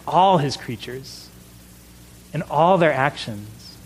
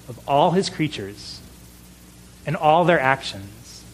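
First: "all" punched each time, slow and deliberate; stress on ALL. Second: Solemn catechism line, each phrase set apart; quoted catechism emphasis. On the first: Shown as a demonstration. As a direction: hit "all" in both phrases, slowly. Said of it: "with that emphasis". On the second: Retold or imitated. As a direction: lean on "his" and "their" like a recited catechism. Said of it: "He said it just like that, with that emphasis".

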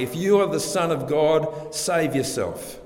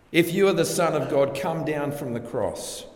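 First: Higher, sneering dare; mocking taunt. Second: Mocking taunt, stronger. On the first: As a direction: jeer it like a challenge from below the cross. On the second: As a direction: push the taunt harder. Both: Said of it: "They taunt Jesus".

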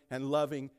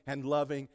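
No difference in how they are said.

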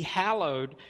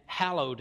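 First: "hallowed" said firmly with a clear first vowel and final d; distinct pronunciation. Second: Said in the usual way. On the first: Shown as a demonstration. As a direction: carefully articulate "hallowed" as HAL-ohd. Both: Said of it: "so try to be distinct".

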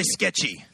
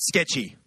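First: SKETCHY with conviction; a firmly meant "Sketchy"; said like you mean it. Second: Said in the usual way. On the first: Shown as a demonstration. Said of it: "Say it like you mean it". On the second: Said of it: "So everyone say, come on, say it".

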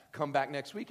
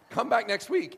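First: Said in the usual way. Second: Loud punchy invite. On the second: Shown as a demonstration.

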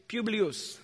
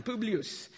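First: Said in the usual way. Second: Publius as POO-blee-oos, Italian vowels; Italian pronunciation. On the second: Shown as a demonstration. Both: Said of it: "That's how they say it in Italian".

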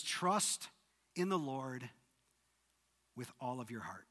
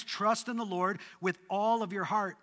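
First: Hushed scripture reading; soft quoted verse. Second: "all" pushed hard, the rest even; emphatic verse with "all" stressed. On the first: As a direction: let the words settle quietly. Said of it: "this is where it begins". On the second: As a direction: lean into the word "all". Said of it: "this is where it all begins". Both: Shown as a demonstration.

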